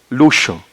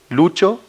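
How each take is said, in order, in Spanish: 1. El sonido del medio es una fricativa sh. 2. El sonido del medio es una africada ch.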